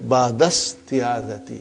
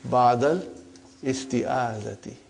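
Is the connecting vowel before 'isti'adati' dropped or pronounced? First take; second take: dropped; pronounced. First: The words run together, skipping the initial 'i' vowel. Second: The initial 'i' of 'isti'adati' is clearly pronounced. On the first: The speaker calls it right. "your mother tongue is Arabic, you have no problem. Uh, so you will say" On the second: The speaker calls it wrong. "for simplicity, I still feel that while we are learning, whether we can say"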